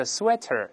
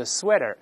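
First: "sweater" spoken slowly with a crisp t; careful slow-form "sweater", t clearly released; slow careful reading. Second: American quick-form "sweater", t softened to a tap; quick casual reading. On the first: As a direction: say "sweater" carefully as "swe-ter", full t. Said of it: "咱读慢了叫sweater". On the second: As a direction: say "sweater" fast as "swe-der". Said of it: "读快叫sweater". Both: Shown as a demonstration.

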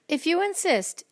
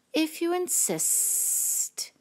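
First: High, sweet, sing-song reply. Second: High, very slow, drawn-out snake. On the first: Friendly ladybug accepting a fight, high and sweet. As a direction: answer sweetly, pitched well up. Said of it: "answered the friendly ladybug sweetly". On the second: Snake accepting the ladybug's challenge, slow sibilant voice. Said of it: "said the snake". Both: A narrator's reading.

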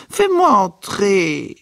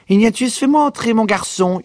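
First: Higher, louder, slow drawn-out plea; mother insisting slowly at the door; insistent demand. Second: Higher, louder mother's yell; mother yelling at the door, higher and louder. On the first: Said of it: "Madame Riley cognait contre la porte". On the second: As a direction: shout through the door to be let in. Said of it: "hurla-t-elle". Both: A narrator's reading.

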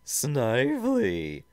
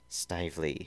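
First: Loud, high, drawn-out villain's roar. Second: Said in the usual way. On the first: Acted. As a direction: roar for the underling, stretching the name. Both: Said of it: "deep and ominous voice roared".

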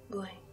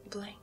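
Both takes have the same delivery.

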